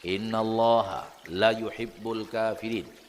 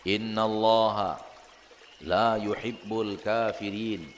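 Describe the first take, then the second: First: The vowel in la is cut short. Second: The vowel in la is drawn out long. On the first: God truly loves the disbelievers. The speaker calls it wrong. "dibaca pendek" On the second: God does not love the disbelievers. The speaker calls it right. "Panjang la-nya"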